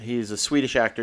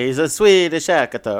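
First: It is said in the speaker's plain accent. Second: It is said in a put-on Italian accent.

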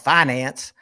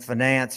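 First: The word is said with a Southern pronunciation. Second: The word is said in a standard way.

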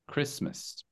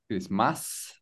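First: The word is said without an 'ah' vowel. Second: The word is said with an 'ah' vowel. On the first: The speaker calls it right. "and the T here, it's not really pronounced. Okay, so it's Christmas" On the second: The speaker calls it wrong. "So it's not Christmas, so it's not the ah"

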